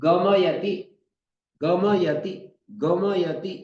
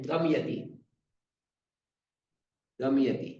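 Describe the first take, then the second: First: गमयति with every syllable full, ग-म-य-ति; careful pronunciation. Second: गमयति clipped to गम्यति, the middle vowel swallowed; wrong slurred pronunciation. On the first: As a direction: spell out गमयति slowly and fully. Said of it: "तब तो ऐसे बोलना पड़ेगा". (गमयति का पूरा स्पष्ट उच्चारण) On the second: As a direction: slur गमयति the way people get it wrong. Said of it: "और क्या बोल देते हैं". (गलत, गम्यति जैसा उच्चारण) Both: Shown as a demonstration.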